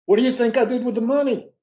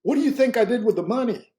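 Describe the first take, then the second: First: Quicker, louder, pressing repeat; repeated question. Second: High, loud teasing question; spring the question on him, louder and higher; startling question. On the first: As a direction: push the question again, fast and loud. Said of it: "he repeated it again". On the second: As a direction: Nelson testing his listener, loud and high-pitched. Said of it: "he said something that just startled me". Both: Retold or imitated.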